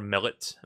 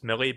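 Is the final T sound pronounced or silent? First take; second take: pronounced; silent. First: The final T sound is pronounced. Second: The final T sound is silent.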